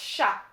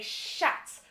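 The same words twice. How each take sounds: First: The final consonant is silent. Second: The final consonant is pronounced. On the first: The speaker calls it right. "but it's chat" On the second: The speaker calls it wrong. "Anglophones would say chat"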